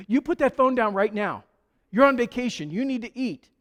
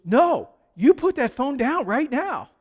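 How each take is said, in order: First: A stern hostess ordering her guest off the phone; bossy hostess. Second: Higher and louder, repeating the order firmly; insist, no arguing this time; insistent hostess. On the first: Hostess to pastor on phone, stern scolding order. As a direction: command him to put the phone down, a bit raised. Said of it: "and she goes". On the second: Hostess to pastor refusing to wait, insistent order. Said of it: "And then she goes". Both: Retold or imitated.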